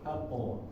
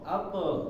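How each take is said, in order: First: The echo vowel sounds like o. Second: The echo vowel sounds like e. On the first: The speaker calls it right. "tapi dia o" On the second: The speaker calls it wrong. "jangan dibacanya ako, ako. Jadi e ya"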